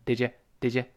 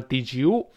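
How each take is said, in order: First: "did you" reduced to "didja"; weakened you. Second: "did you" with a full oo in "you"; full-vowel you. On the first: Teacher shows learners the weak form, reduced "did you". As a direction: shrink "you" to a short, weak "yuh" in "did you". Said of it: "那个you也弱化成也". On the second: Teacher shows the form not always used, full "did you". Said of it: "当然不能都是did you". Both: Shown as a demonstration.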